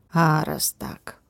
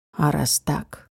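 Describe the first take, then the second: First: Slow, breathy menace; slow whisper. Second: Low, velvety menace; low sensual voice. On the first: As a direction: let it hang, slow and hushed. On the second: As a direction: drop into a seductive low register. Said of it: "таким низким, чувственным голосом". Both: Acted.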